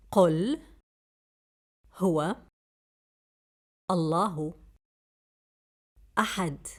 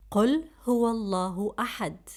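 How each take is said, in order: First: Word by word. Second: Said in the usual way. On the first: Shown as a demonstration. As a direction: say each word alone, with pauses.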